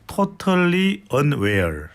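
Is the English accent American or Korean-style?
Korean-style. It is said with a Korean-style English accent. "콩글리시로 발음 다시 해주세요"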